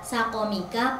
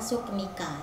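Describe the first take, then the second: First: Both first syllables carry an a vowel. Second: The first vowel is u; the second is dropped. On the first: "memberi fathah huruf sin dan huruf qaf" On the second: "Huruf sinnya di dhammah dan huruf qafnya disukun"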